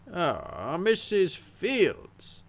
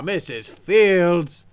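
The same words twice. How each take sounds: First: The phrase is said with a high pitch. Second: The phrase is said with a lower pitch. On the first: The speaker calls it wrong. "He said it with like a high inflection" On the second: The speaker calls it right. "It should have been"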